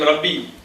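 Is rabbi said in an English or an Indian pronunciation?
Indian. It is said with an Indian pronunciation. The speaker calls it wrong. "Indians call them rabbi"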